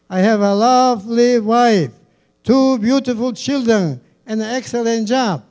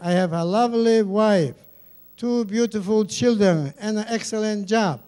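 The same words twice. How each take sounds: First: It is said in a louder voice. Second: It is said at normal volume.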